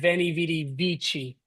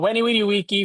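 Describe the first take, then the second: First: The words begin with a V sound. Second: The words begin with a W sound. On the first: It follows the church pronunciation. "if you want to pronounce like the church and the ecclesiastical" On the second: It follows the classical pronunciation. "for classical pronunciation"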